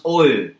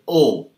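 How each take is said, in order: First: "O" drawn into a glide with an E at the end; Australian O. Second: Said in the usual way. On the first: Shown as a demonstration. Teacher showing learners the Australian vowel, "O" gliding into E. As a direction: say "O" the Australian way, ending on an E sound. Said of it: "They always have an E at the end". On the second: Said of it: "They will never pronounce it as O".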